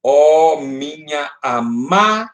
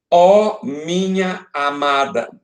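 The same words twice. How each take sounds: First: "amada" held long on MA, pause, then a weak da; slow "Ó minha amada", stretching MA and detaching the final da; última sílaba forte. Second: "Ó minha amada" slowly recited, word by word; verso recitado. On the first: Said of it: "Aqui, a última sílaba forte". ("amada" com MA forte e alongado, da separado) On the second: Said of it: "Qual é a sílaba mais forte". ("Ó minha amada" recitado devagar) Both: Shown as a demonstration.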